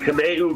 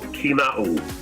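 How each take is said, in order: First: The first syllable does not sound like key. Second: The first syllable sounds like the word key. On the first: The speaker calls it wrong. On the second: The speaker calls it right. "it's like a key"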